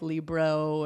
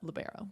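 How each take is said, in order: First: The word is squeezed into two syllables. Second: The word is said with three full syllables. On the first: This is how some people say it. The speaker calls it wrong. "Sometimes people pronounce it like Libro" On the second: This is the proper way to say it. The speaker calls it right. "but libero"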